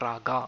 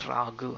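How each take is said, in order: First: The word ends in a vowel sound. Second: The word ends in a consonant sound. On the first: The speaker calls it wrong. "not raga, as some people end up pronouncing it" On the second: The speaker calls it right. "It is rag"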